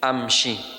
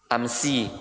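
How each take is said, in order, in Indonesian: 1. Konsonan di tengah itu bunyi sh. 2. Konsonan di tengah itu bunyi s biasa. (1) "Ya pakai shin" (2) "Amsi kalau pakai sa"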